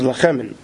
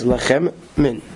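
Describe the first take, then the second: First: The two words run together without a pause. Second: There is a pause between the two words.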